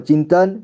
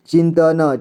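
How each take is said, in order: First: Said in the usual way. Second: चिंतन split as "chin-ta-na"; चिंतन with final न voiced as "na"; sounded out. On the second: Shown as a demonstration. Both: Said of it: "इसे [name] पढ़ेंगे".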